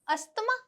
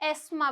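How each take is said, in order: First: The 'th' sound in the middle is pronounced. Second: The 'th' sound in the middle is silent. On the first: The speaker calls it wrong. "अस्थमा कहलाता है, बिल्कुल नहीं। ये word बहुत सारे लोग गलत pronounce करते हैं" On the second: The speaker calls it right. "इसमें जो टी एच है वो क्या है, साइलेंट है"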